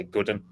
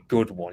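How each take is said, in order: First: "good un." with one said as a short un; northern-style good un, relaxed; dialect un. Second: Said in the usual way. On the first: Shown as a demonstration. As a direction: clip one down to "un". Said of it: "you say". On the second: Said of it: "We don't say".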